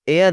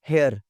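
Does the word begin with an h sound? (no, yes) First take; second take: no; yes. First: The word begins with a vowel sound. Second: The word begins with an h sound. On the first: The speaker calls it right. "एयर लफ्ज़ है जनाब" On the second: The speaker calls it wrong. "आप लोग क्या बोलते सुनते आए हैं?"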